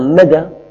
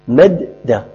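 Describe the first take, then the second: First: The d sound is single and short. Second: The d sound is doubled and held. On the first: The speaker calls it wrong. "لو قلت أنا مد أنا أضعت حرفا" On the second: The speaker calls it right. "عندي دال أولى ساكنة ودال ثانية مفتوحة"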